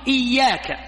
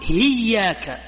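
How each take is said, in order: First: The word begins with a glottal stop. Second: The word begins with an h sound. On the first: This is the common form of the word. "في لهجتهم نحن نقول إياك" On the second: This is a regional dialect form of the word. "في لهجة هؤلاء يقولون هياك، يقلبون الإيش؟ الهمزة هاء"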